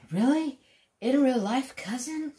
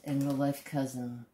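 First: High, rising mock disbelief; surprised disbelief. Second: Said in the usual way. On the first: Viewers asking in disbelief about his famous cousin, high and rising. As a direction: ask it as an amazed fan. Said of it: "They say".

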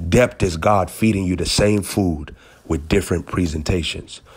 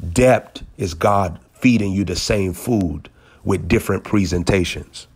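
The two takes are said the same way.

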